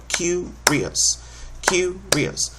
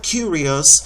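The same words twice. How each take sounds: First: "curious" with each beat tapped out, stress on "cu"; beating out the syllables. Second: Said in the usual way. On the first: Shown as a demonstration. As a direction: clap the beats of "curious", hitting "cu". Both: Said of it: "checking the beats of the word".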